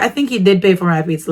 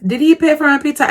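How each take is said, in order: First: Said in the usual way. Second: Pitched up high, quick and unsure; doubtful question. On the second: Shown as a demonstration. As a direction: ask it as a real doubting question. Asks then answers herself.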